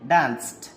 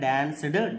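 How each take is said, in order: First: The ending is pronounced as a t sound. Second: The ending is pronounced as a d sound. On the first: The speaker calls it right. "టా sound గుర్తుంచుకోవాలి" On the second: The speaker calls it wrong. "డా sound రాదు"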